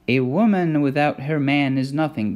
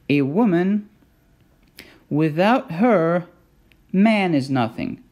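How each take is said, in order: First: It is said straight through without pauses. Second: It has pauses after "woman" and after "her".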